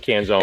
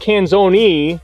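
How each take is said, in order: First: The name is said the American way. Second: The name is said the Italian way. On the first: This is the everyday local pronunciation. "here I just say Canzone" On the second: This is the name's original pronunciation.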